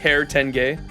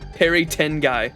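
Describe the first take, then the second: First: The last syllable sounds like 'gay'. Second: The last syllable sounds like 'guy'. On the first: The speaker calls it right. "It sa- sounds more like" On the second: The speaker calls it wrong. "my pronunciation was fucking terrible"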